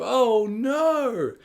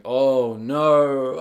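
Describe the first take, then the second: First: Rising panic. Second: Dread. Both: Retold or imitated. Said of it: "and you think".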